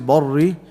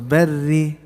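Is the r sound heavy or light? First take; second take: heavy; light. First: The r sound is heavy and full. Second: The r sound is light and thin. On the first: The speaker calls it wrong. "Don't say barri" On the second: The speaker calls it right. "The whole ra, the fully is light"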